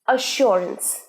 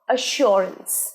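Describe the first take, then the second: Both takes have the same delivery.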